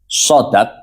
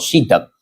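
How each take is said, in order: First: The first syllable has an 'a' vowel. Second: The first syllable has an 'i' vowel. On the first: The speaker calls it right. "Sodnya bisa di fathah" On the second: The speaker calls it wrong. "atau sodnya bisa dibaca kasroh"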